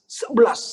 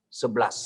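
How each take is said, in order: First: Higher, louder Sebelas with a falling end; emphatic answer. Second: Said in the usual way. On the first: Shown as a demonstration. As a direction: drive home the number Sebelas.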